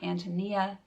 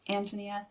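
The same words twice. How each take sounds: First: The stress falls on a later syllable. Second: The stress falls on the first syllable. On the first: The speaker calls it wrong. "it's not Antonia" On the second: The speaker calls it right. "it has the accent on the, the first syllable"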